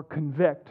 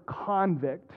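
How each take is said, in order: First: "convict" stressed on the second syllable, con-VICT; "convict" with the stress at the end, con-VICT; verb convict. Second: "convict" stressed on the first syllable, CON-vict; "convict" with the stress up front, CON-vict; noun convict. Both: Shown as a demonstration. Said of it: "depending on how I say it".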